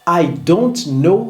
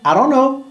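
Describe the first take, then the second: First: Each word is said separately and fully. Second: The words run together into one reduced stream.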